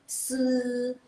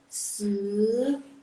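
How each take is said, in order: First: The pitch stays high and level. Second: The pitch rises from mid to high. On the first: "kalau dia nada ke satu" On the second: "kalau dia nada kedua"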